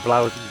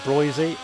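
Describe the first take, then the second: First: The first vowel sounds like 'ow'. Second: The first vowel sounds like 'oy'. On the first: The speaker calls it wrong. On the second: The speaker calls it right.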